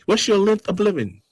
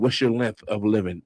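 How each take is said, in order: First: It is said in a posh billionaire voice. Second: It is said in his normal voice.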